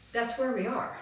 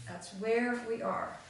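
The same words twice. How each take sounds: First: Said in the usual way. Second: Slow, deliberate weight on "where"; emphatic repeat. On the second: Real, not acted. Speaker driving a sobering point home to the group, slow emphasis on "where". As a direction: draw out "where" slowly to drive it home.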